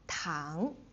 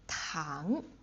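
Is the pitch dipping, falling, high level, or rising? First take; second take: rising; rising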